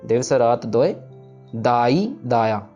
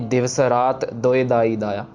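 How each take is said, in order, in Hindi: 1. विश्राम 'doy' शब्द के ठीक बाद आता है। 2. विश्राम 'raat' शब्द के ठीक बाद आता है। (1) "यहाँ पे हमने दोय पे विश्राम लगाना है" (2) "हम रात पे वो जम्मक लगाते हैं कि ... ऐसे नहीं पढ़ना"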